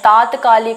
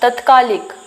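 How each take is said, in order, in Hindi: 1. पहला स्वर दीर्घ है। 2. पहला स्वर ह्रस्व है। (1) "त के ऊपर आ की मात्रा रहेगी" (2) "तत्कालिक नहीं होता है"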